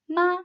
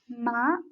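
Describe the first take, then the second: First: The pitch stays high and level. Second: The pitch rises from middle to high. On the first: "The first tone is a high, flat tone" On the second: "The second tone is a rising tone"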